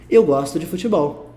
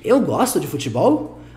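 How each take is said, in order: First: It is said with statement intonation. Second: It is said with question intonation. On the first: The speaker asserts a fact. "a gente só muda a entonação da frase" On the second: The speaker asks whether it is true. "a gente só muda a entonação da frase"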